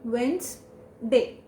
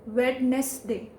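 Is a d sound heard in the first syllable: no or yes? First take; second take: no; yes. First: No d sound is heard: wens-day. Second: A d sound is heard: wed-nes-day. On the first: The speaker calls it right. "Wednesday will become as Wens, simply Wens" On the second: The speaker calls it wrong. "They speak it as Wednesday, Wednesday, but that's wrong"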